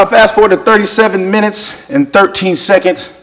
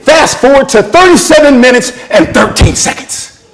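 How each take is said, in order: First: Said in the usual way. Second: High, emphatic directive; emphatic instruction. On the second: Retold or imitated. Friends tell Dave where to look on YouTube, emphatic instruction. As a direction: spell out the exact spot insistently. Friends urge him to a video moment.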